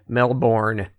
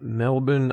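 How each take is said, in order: First: It is said with an American accent. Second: It is said with an Australian accent.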